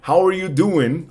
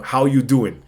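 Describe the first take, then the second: First: Said in the usual way. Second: "How you doing?" with no "are"; casual reduced form. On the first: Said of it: "en este caso es". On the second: Shown as a demonstration. Teacher gives the alternative, casual reduced form. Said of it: "no suena el R".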